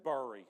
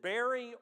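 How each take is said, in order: First: "bury" said as "burr-ee"; pronounced to rhyme with furry. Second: "bury" said as "berry"; pronounced like berry. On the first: Preacher asking congregation how to say it, "bury" as burr-ee. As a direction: say "bury" with the vowel of fur. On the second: Preacher asking congregation how to say it, "bury" as berry. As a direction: say "bury" to rhyme with cherry. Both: Shown as a demonstration. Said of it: "Is it bury or is it bury?".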